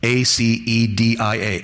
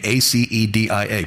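First: Careful, slow letter-by-letter spelling of acedia. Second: Said in the usual way. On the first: Shown as a demonstration. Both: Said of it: "look up the word acedia".

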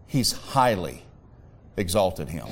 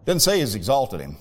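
First: Weighty pause after HIGHLY; stress on HIGHLY. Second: Said in the usual way. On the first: Shown as a demonstration. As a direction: HIGHLY set apart by a pause.

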